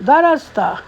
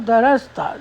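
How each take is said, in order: First: درستہ with "s" and "t" pulled apart, a touch louder; wrong way. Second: درستہ with "r" and "s" run together smoothly; right way. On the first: Teacher showing the mistake students make, syllables split. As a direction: say درستہ with the letters separated. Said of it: "درستہ نہیں بولنا". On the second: Teacher giving the corrected merged pronunciation. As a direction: blend the sounds in درستہ without a break. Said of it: "سین کو را میں مغ-، مغزم کرنا ہے". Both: Shown as a demonstration.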